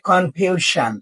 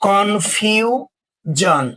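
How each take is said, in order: First: The ending is said with a voiceless 'sh' sound. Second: The ending is said with a voiced 'zh' sound. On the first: The speaker calls it wrong. "Not কনফিউশন" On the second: The speaker calls it right. "S I O N এর উচ্চারণ জন হয়"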